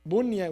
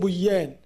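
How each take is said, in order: First: The noon sound is pronounced clearly and separately. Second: The noon is merged into the following sound. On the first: The speaker calls it right. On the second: The speaker calls it wrong.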